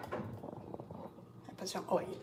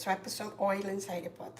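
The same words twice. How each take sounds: First: Slow unvoiced whisper to herself; hushed slow murmur to herself; whispered aside. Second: Said in the usual way. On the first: Real, not acted. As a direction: breathe the words out slowly under her breath.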